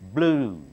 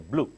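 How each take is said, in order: First: The vowel is long and stretched out. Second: The vowel is short and clipped. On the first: The speaker calls it right. "English is always stretched" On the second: The speaker calls it wrong. "Do not say blue"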